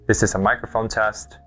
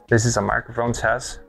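First: The transmitter is two meters from the receiver. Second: The transmitter is five meters from the receiver. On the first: "I'm currently now 2 meters away from the receiver or the camera" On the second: "about 4.8 meters or to 5 meters away from the camera"

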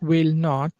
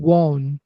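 First: Both words are said fully and separately. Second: The words are merged into one short syllable.

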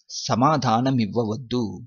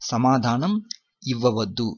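First: The two words are blended into one. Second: The two words are said separately and fully. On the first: This is how it is said in everyday speech. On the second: This is the full form of the phrase.

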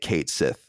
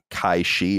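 First: The name is said like 'Kate Sith'. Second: The name is said like 'Kai Shi'. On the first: The speaker calls it wrong. "I don't think you even say it" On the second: The speaker calls it right. "I think it's like Kai"

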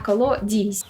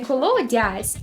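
First: The last syllable has the vowel 'i'. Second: The last syllable has the vowel 'ya'. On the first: This is the local dialect form. "тут часто звучить як «і»" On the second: This is the standard literary form. "у літературному варіанті міняється на «а», тобто «я»"

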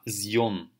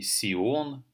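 First: It begins with a voiced z sound. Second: It begins with a voiceless s sound. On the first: The speaker calls it right. "а Зьон" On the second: The speaker calls it wrong. "Не Сион, никак по-другому"

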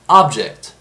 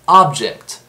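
First: The stress is on the first syllable. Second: The stress is on the first syllable.

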